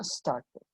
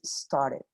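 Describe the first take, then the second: First: "started" with the ED fully sounded; "started" said slowly as star-ted; clear ED. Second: "started" with a soft flapped T, American style; "started" said as star-ded, American flap; American pronunciation. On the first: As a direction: say the ending of "started" carefully and slowly. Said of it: "Pero suena started". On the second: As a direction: relax the T of "started" into a quick D. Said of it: "Una pronunciación más americana". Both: Shown as a demonstration.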